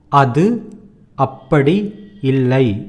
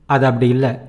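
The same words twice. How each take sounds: First: Every sound is pronounced clearly and fully. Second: The sounds are shortened and run together. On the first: This is formal written-style Tamil. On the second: This is everyday spoken Tamil. "That is how you say that as you speak"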